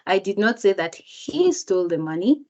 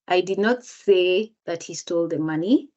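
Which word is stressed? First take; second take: he; say. First: The word he is stressed. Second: The word say is stressed. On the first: Someone else stole the money. "If the speaker emphasizes the word he" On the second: It was conveyed another way, not said. "if the speaker emphasizes the word say"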